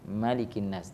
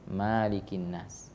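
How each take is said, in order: First: The first vowel of Malikin is kept short. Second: The first vowel of Malikin is held long. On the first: The speaker calls it right. "membaca dengan pendek" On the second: The speaker calls it wrong. "Tidak ada yang membaca"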